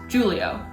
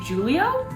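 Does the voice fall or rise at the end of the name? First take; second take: fall; rise. First: The voice falls at the end, like a statement. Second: The voice rises at the end, like a question. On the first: She is simply addressing him. "instead of just Julio" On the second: It sounds like she is asking something. "put this inflection in her voice to make it sound like a question"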